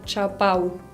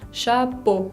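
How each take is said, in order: First: The final vowel is a two-part a-u glide. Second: The final vowel is a single plain o. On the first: The speaker calls it wrong. "No quiero escuchar chapau" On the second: The speaker calls it right. "Es chapeau con una O"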